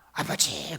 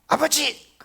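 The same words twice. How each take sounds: First: It sounds like a desperate plea for help. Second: It sounds like an urgent shouted warning. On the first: The caller wants to be saved. "나 좀 구해줘요 그 말이잖아요" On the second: The person called is in danger. "위험하다는 거잖아요"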